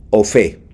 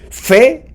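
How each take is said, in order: First: Said in the usual way. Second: "fe" said high and punched, as if written with a tilde; "fe" ringing out high, the accented spelling; fe with accent mark. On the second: Shown as a demonstration. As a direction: lift "fe" up high and stress it hard, the accented version. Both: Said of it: "qué diferencia hay entre fe o fe".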